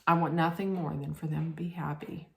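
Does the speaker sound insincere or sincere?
insincere. It is said in a flat, unconvincing way. The wish is not really meant. "She was like, ... It didn't look convincing"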